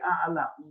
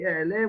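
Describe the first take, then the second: First: The vowels are 'a' sounds. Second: The vowels are 'e' sounds. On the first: This is the Yemenite way without segol. "we say a'ala" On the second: This uses the segol vowel. "We don't say ele"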